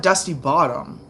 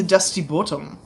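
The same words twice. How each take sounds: First: Said in the usual way. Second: "Bottom" in an accent, with an altered first vowel; accented pronunciation. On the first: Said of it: "It's not Dusty Bottom". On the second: Shown as a demonstration. Explaining the Dusty Bottom nickname, accented pronunciation. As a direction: say "Bottom" rounded, close to "boltum". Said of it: "like, accent came from".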